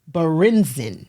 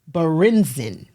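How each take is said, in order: First: The name is said with an American pronunciation. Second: The same.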